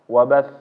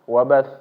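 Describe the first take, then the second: The two takes are said the same way.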